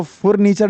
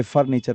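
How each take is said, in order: First: फर्नीचर misread with an O-like first vowel, "for-neechar"; wrong pronunciation. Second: फर्नीचर with a short A first vowel, "far-neechar"; quiet corrected reading of फर्नीचर as "far-neechar"; correct pronunciation. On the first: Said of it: "इसको फर्नीचर नहीं पढ़ेंगे". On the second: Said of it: "फर्नीचर पढ़ेंगे". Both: Shown as a demonstration.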